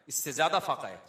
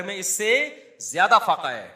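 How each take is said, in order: First: Said in the usual way. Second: Louder, ringing emphasis on زیادہ فاقہ; emphatic cry. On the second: Acted. Preacher to congregation about the leader, loud emphatic cry. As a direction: proclaim it to the whole hall.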